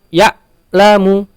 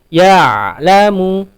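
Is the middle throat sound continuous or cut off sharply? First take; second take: cut off; continuous. First: The throat sound is cut off like a glottal stop. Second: The throat sound flows on with some voice. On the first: The speaker calls it wrong. "jangan ya'lamu seperti syiddah, itu ha, sifatnya huruf hamzah" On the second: The speaker calls it right. "ain bersifat bainiyah. Dia sedikit mengalir"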